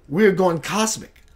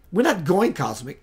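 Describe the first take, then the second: First: Said in the usual way. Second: "not" leaned on to correct; stress on not. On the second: Shown as a demonstration. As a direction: hit "not" to contradict.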